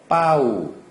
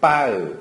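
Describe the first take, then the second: First: The word ends in a rounded 'oo' vowel. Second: The word ends in an unrounded 'eu' vowel. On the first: "빠우, 이렇게 발음하는 것보다는" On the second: "빠으, 이렇게 발음하고 있는 상황입니다"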